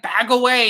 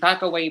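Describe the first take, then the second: First: It is yelled loudly and forcefully. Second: It is said calmly at normal volume. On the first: The order comes with a threat. "Not like" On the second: The order is given politely. "I like how he's just saying"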